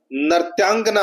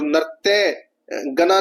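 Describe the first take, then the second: First: नृत्यांगना as one word, nrityaangana with a long aa; correct form. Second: नृत्य गना split in two, nritya gana, slow; wrong form, slowly. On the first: Teacher gives students the correct spelling, plainly. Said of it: "नृत्यांगना होता है". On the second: Teacher reads the misspelt option to students, slowly. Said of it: "नृत्य गना नहीं होता". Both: Shown as a demonstration.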